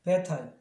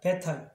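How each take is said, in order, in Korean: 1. 'bad'의 d는 발음 안 해요. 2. 'bad'의 d는 발음 안 해요.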